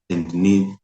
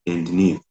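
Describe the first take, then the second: No difference in how they are said.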